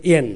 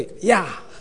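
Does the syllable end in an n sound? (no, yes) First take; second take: yes; no. First: The syllable ends with an n sound. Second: The syllable ends in a plain vowel. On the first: The speaker calls it wrong. "那不是读作砚啦" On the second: The speaker calls it right. "那个读作呀"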